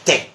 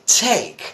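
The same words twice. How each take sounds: First: The t has no puff of air. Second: The t has a puff of air. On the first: The speaker calls it wrong. "You don't say take" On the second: The speaker calls it right. "You say take. So there's that little kind of... air coming out... we call it aspiration"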